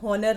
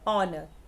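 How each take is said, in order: First: The word begins with an audible h sound. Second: The word begins directly with a vowel sound. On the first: The speaker calls it wrong. "हम हॉनर नहीं बोलते, ह नहीं बोलते" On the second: The speaker calls it right. "हम क्या बोलते हैं, ऑनर"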